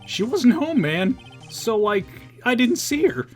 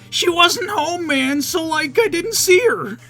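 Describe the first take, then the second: First: It is said in the speaker's normal voice. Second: It is said in a put-on character voice.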